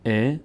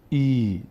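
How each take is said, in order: First: ا as an "e" sound; short kasra. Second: ای as a slow, held "eee"; stretched ee. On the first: Teacher showing the original kasra, short e on ا. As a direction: say ا before it becomes stretched. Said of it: "ببینیم ا". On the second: Teacher showing what kasra became, long ee on ای. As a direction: draw ای right out. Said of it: "کش داد". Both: Shown as a demonstration.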